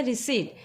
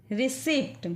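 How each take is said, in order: First: रिसीट with a long ee and silent p, ri-seet; रिसीट said as ri-seet, no p sound; steno reading. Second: रिसिप्ट with the p sounded, ri-sipt; रिसिप्ट read as the letters give it, p included; spelled-out reading. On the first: Teacher gives students the steno reading without the p. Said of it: "इसको रिसीट पढ़ते हैं". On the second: Teacher reads the word with the p before correcting it. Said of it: "steno की language में रिसिप्ट नहीं पढ़ते हैं". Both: Shown as a demonstration.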